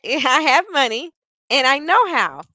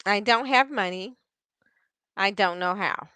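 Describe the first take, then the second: First: Lifted. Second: Deflated. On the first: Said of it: "do you notice there's a difference". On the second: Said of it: "Do you hear how her energy went down". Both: Shown as a demonstration.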